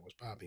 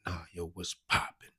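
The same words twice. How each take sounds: First: Quiet, slightly higher quick reply; casual greeting. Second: Slow, emphatic challenge; pointed challenge. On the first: Storyteller retelling his reply to a stranger, casual and quiet. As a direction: toss it off softly. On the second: Gang member testing a stranger he approached, pointed challenge. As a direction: press the greeting slowly, with weight. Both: Retold or imitated.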